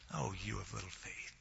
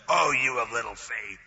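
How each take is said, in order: First: It is said in a warm, loving tone. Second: It is said in an angry, scolding tone.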